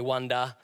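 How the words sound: It is said with an Australian accent. "Australians say wonder"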